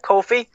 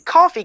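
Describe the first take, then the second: First: The name does not sound like the drink coffee. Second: The name sounds like the drink coffee. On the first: The speaker calls it right. "I said it right. I didn't say coffee" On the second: The speaker calls it wrong. "gonna say just for you"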